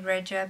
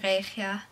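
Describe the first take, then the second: First: The name is said with an English pronunciation. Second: The name is said with a Dutch pronunciation. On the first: "I'll just say Regia" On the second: "in Dutch I would say Regia"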